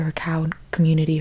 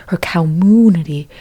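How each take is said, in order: First: Said in the usual way. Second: "community" with a long, loud MOO in the middle; mooed pun. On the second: Acted. Comic punning on cows, "community" said as a drawn-out cow-MOO-nity.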